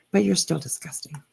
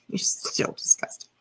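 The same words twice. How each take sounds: First: Said in the usual way. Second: Whispered through a laugh, teasing. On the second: Real, not acted. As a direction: whisper it with a giggle, mocking.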